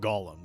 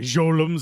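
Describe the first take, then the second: First: The word begins with a hard G sound. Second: The word begins with a J sound.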